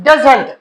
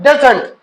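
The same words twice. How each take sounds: Both takes have the same delivery.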